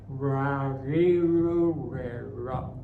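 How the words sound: It has a hard American-style R.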